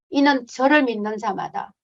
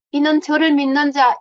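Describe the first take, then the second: First: Said in the usual way. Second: 저를 pushed higher and louder, then falling; stress on 저를. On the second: Shown as a demonstration. Missionary repeating the verse, 저를 stressed loud. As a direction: lean hard on 저를, it means them too. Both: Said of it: "인도인들, 힌두들".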